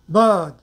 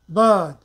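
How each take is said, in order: No difference in how they are said.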